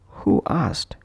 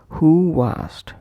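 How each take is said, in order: First: The words are said without a linking glide. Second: A soft w glide links the two words. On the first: The speaker calls it wrong. "pronounced as who asked" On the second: The speaker calls it right. "we will add a little W in between these two vowels"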